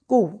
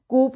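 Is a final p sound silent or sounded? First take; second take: silent; sounded. First: The word ends without a p sound. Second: The word ends with an audible p sound. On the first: The speaker calls it right. "पी silent" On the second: The speaker calls it wrong. "कूप बोलने की गलती नहीं करनी"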